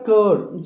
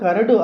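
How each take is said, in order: First: It is one syllable with no extra vowels. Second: Extra vowels are added, making it three syllables. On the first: The speaker calls it right. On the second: The speaker calls it wrong. "కరడు అనకుండా"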